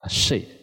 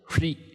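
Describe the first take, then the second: First: The syllable begins with an 'sh' sound. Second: The syllable begins with an 'h-r' sound. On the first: The speaker calls it wrong. "我们一般都把它念成睡了" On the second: The speaker calls it right. "其实应该是free"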